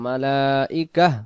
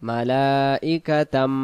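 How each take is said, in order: First: The word ends in a breathy ah sound. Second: The word ends in tan, running on. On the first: The reciter stops at this word. "আমরা দম ছেড়ে দেব মালাইকাহ, গোলতাটাকে আমরা আহ, হা বানাবো" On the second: The reciter carries on to the next word. "দম যদি না ফেলি"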